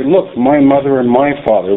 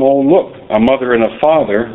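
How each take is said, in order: First: Both "my"s given weight; stress on MY. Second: Said in the usual way. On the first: Shown as a demonstration. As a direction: lean on "my" before mother and father. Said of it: "We say". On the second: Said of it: "we don't say".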